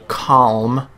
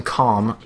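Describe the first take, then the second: First: "calm" as kahlm, tongue touching the teeth for the L. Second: "calm" as kahm, L left silent; calm without the L. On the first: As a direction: sound the L clearly in "calm". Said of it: "your tongue hits the tip of your teeth". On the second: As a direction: say "calm" with no L before the M. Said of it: "you're pronouncing calm". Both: Shown as a demonstration.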